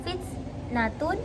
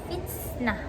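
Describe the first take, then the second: First: The word ends with a -tun syllable. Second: The word ends with a soft h sound. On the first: The word is read without stopping on it. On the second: The reader stops on this word.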